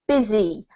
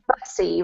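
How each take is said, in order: First: The middle consonant is a buzzing Z sound. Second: The middle consonant is a hissing S sound. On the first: The speaker calls it right. "with a Z sound and an I sounding vowel" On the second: The speaker calls it wrong. "It looks like bussy"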